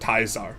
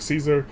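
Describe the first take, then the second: First: The name is said the classical way. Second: The name is said the everyday English way.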